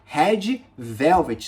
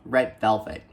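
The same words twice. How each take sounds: First: It is said with Portuguese pronunciation. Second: It is said with English pronunciation. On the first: The speaker calls it wrong. "aqui em português a gente vai falar Red Velvet" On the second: The speaker calls it right. "Red Velvet em inglês a gente fala"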